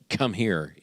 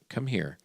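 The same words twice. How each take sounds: First: It is said in a stern, scolding tone. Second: It is said in a warm, inviting tone.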